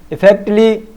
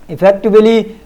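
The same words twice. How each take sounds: The two takes are said the same way.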